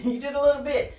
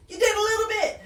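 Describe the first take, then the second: First: Quick repeat through a chuckle; amused, laughing. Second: High-pitched, playful mock cheer; mock congratulating. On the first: Real, not acted. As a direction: chuckle while conceding the small win. Laughs repeating the teasing praise. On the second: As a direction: cheer a tiny win in a much higher voice. Teasing congratulations on small progress.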